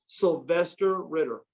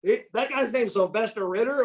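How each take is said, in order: First: Slow, measured announcement; retold name reveal. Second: High-pitched incredulous question; amused disbelief. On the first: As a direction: deliver the name slowly, like a reveal. Dad reveals the athlete's name. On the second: Retold or imitated. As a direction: repeat the name as if you can't believe it.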